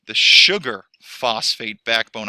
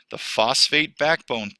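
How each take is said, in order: First: Sugar phosphate backbone slow and louder, backbone drawn out; emphatic restatement. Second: Said in the usual way. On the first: Shown as a demonstration. Teacher correcting herself for students, slow and louder on backbone.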